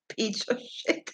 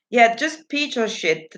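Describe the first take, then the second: First: Puzzled near-whisper. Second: Said in the usual way. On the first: Shown as a demonstration.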